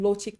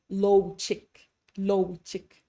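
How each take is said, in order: First: Lo chik with a short pure o; crisp correct vowels. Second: Learner's diphthong in lo chik; mistaken gliding O. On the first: Shown as a demonstration. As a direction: keep lo in lo chik free of glide. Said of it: "instead of saying". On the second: Retold or imitated. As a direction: let lo in lo chik slide to oo. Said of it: "they'll say".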